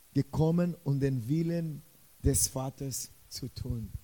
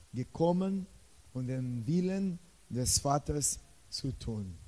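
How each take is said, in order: The two takes are said the same way.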